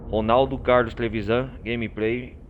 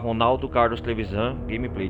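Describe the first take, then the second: First: The name is said slowly and deliberately. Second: The name is said at normal, quick speed.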